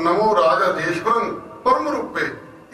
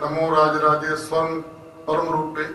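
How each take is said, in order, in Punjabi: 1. ਸ਼ਬਦ ਨੂੰ 'rajeshvaram' ਵਾਂਗ ਇੱਕੋ ਵਾਰ ਪੂਰਾ ਕਹਿਆ ਜਾਂਦਾ ਹੈ। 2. ਸ਼ਬਦ ਨੂੰ 'raje svaran' ਵਾਂਗ ਵੰਡ ਕੇ ਪੜ੍ਹਿਆ ਜਾਂਦਾ ਹੈ। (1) "ਪਾਠ ਕਰਨਾ" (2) "ਇਹ ਨੀ ਪਾਠ ਕਰਨਾ"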